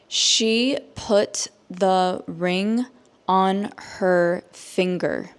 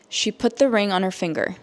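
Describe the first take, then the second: First: The sentence is spoken slowly. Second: The sentence is spoken at normal speed. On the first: "I will say it slowly so that you can understand" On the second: "at a normal native English speaker speed"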